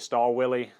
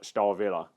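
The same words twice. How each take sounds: First: The W is sounded like an English W. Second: The W is sounded like a V. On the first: The speaker calls it wrong. "that would be pronouncing it in English" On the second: The speaker calls it right. "W's are normally pronounced as V's"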